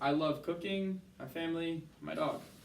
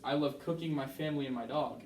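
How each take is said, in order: First: There are pauses between the listed items. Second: The words run together without pauses.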